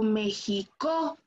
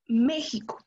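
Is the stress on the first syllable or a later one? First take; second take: later; first. First: The stress falls on a later syllable. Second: The stress falls on the first syllable. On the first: The speaker calls it wrong. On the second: The speaker calls it right.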